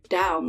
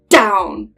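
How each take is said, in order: First: It starts with a soft, plain D sound. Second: It starts with a hard, breathy, T-like sound. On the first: "instead of just like down, like how I'm saying it now" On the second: "They're like down, kind of like that"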